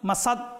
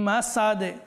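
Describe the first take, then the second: First: The final d stops flat with no echo. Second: The final d ends with a bouncing echo. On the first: The speaker calls it wrong. "মাসাদ মাসাদ বললেই ভুল হবে" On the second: The speaker calls it right. "কলকলা করতে হবে।"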